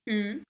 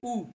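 First: The vowel is front and rounded, like French u. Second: The vowel is back and rounded, like oo. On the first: This is how island speakers say it. "they say U, which is the French U" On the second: This is how mainland speakers say it. "We say U"

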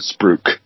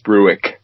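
First: The word is said with the Australian pronunciation. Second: The word is said with its original Dutch pronunciation. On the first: The speaker calls it wrong. "but they pronounce it spruik" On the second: The speaker calls it right. "it is spruik"

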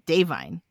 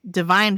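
First: It does not sound like the word divine. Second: It sounds like the English word divine. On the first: The speaker calls it right. "It's Davine. Like that" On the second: The speaker calls it wrong. "It's not Divine Joy Randolph"

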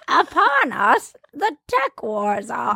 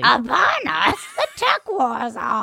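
First: A Yoda impression in a smoother, less gravelly voice. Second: A Yoda impression in a more gravelly voice.

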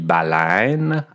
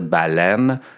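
First: The vowel is a Montreal-style diphthong. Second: The vowel is a plain single E sound.

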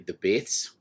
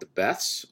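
First: It is said in a New Zealand accent. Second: It is said in a plain American accent.

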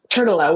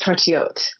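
First: The name is said with American English sounds. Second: The name is said with French sounds. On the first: The speaker calls it wrong. "we pronounce it in a butchered American way" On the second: The speaker calls it right. "the correct French pronunciation is Tortillot"

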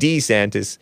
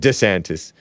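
First: The name sounds more Italian and harsher. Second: The name sounds less Italian and softer. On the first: This is the older way the name was said. "stop saying DeSantis" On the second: This is the newer way the name is said. "now saying DeSantis because it doesn't sound so harsh and manly. Or an Italian"

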